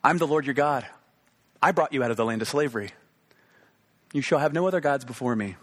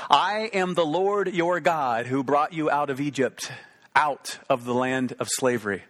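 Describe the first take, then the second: First: Spoken straight to you, plain and direct; personal address. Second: Slow, weighty reading of God's words; solemn scripture reading. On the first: Preacher voicing God to the listener today, direct and personal. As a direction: say it as if God speaks to you now. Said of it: "Let this speak to you today". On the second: Preacher reading the command to the congregation, slow and solemn. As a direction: intone it like scripture read aloud. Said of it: "God spoke these words". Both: Shown as a demonstration.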